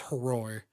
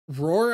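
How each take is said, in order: First: The name begins with an audible H sound. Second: The name begins without any H sound. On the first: The speaker calls it right. "he pronounces the H" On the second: The speaker calls it wrong. "just Roar"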